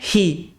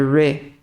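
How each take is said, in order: First: It starts with a breathy h-like sound. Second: It starts with a strong curled r sound. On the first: The speaker calls it wrong. "Não é he" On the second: The speaker calls it right. "é re"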